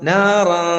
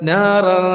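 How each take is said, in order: No difference in how they are said.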